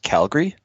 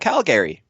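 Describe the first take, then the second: First: The middle vowel is dropped, giving two syllables. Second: The middle vowel is pronounced, giving three syllables. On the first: This is how locals say it. The speaker calls it right. "you don't pronounce the second A, so it's just Calgary" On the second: This is how outsiders say it. The speaker calls it wrong. "who just see the name Calgary, they go"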